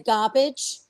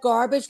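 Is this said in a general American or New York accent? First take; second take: New York; general American. First: It is said in a New York accent. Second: It is said in a general American accent. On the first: "we say garbage" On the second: "instead of garbage"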